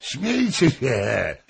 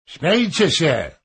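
First: Slow, drawn-out "Śmiejcie" with a falling end; defiant drunk. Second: Higher and louder defiant call. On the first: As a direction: dare them to laugh, slowly. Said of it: "mówił Hoym". (wolne, wyzywające "Śmiejcie się") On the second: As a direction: shout them down. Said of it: "zawołał". (głośne, wyzywające zawołanie) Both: A narrator's reading.

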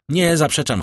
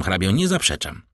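First: Higher and louder, pressing the first nie; emphatic denial. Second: Said in the usual way. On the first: Acted. Morel eagerly confirms to the count, emphatic. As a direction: open with a firm, lifted Nie zaprzeczam. Morel admits his love.

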